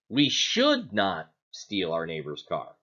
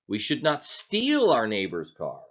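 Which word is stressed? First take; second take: should; steal. First: The stress falls on the word "should". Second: The stress falls on the word "steal". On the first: We ought not to, but we will anyway. "Are we saying that we shouldn't, but we're going to anyway?" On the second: Borrowing it would be fine. "Are we saying then that it's okay to borrow it?"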